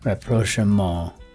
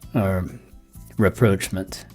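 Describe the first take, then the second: First: It is said the British, French-like way. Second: It is said the American way.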